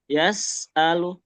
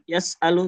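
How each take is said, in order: First: The s sound is drawn out and flowing. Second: The s sound is short and quick. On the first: The speaker calls it right. "tapi yes alu tuh" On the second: The speaker calls it wrong. "jangan terlalu cepat. Jangan yes alu"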